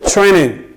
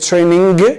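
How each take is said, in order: First: The final g sound is left out. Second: The final g sound is clearly pronounced. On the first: The speaker calls it right. "So we say training. G gets omitted" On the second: The speaker calls it wrong. "we don't say training"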